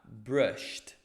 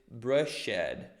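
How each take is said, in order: First: The ending is a short 't' sound. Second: The ending is a separate 'ed' syllable. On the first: The speaker calls it right. "vou literalmente colocar um sonzinho de um T" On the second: The speaker calls it wrong. "não vou dizer brushed"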